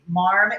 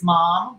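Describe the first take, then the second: First: The word is said with an R sound added. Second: The word is said without any R sound.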